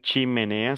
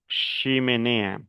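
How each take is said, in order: First: It begins with a 'ch' sound. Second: It begins with an 'sh' sound. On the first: "yo no dijera chimenea" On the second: "sino chimenea"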